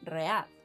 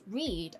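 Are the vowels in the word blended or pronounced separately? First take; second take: separate; blended. First: Each vowel is pronounced as a separate sound. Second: The vowels blend into one single vowel sound. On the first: "they usually pronounce each vowel individually, as in read" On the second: "as I did just now"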